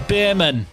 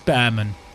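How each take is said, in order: First: The first syllable sounds like 'beer'. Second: The first syllable sounds like 'bear'. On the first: The speaker calls it wrong. "I'm saying the Beerman" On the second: The speaker calls it right. "it's Behrman"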